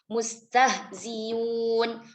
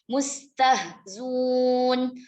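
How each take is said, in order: First: The hamzah is replaced by a y sound. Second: The hamzah is dropped and the vowel before becomes u. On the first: "Biibdalil hamzah ya'an" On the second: "Bihadfil hamzati ma'adhammi ma qablaha"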